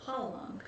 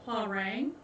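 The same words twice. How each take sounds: First: The middle consonant is a soft L-like sound. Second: The middle consonant is a hard American R. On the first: The speaker calls it right. "it's pronounced with like a soft L" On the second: The speaker calls it wrong. "it looks like what how Americans would pronounce it"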